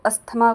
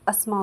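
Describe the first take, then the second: First: The middle 'th' sound is pronounced. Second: The middle 'th' sound is silent. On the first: The speaker calls it wrong. "वो अश्मा को अस्थमा कहते हैं" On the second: The speaker calls it right. "असल में उच्चारण अस्मा होता है"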